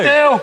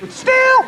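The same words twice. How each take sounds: First: It is said in a low voice. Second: It is said in a high voice.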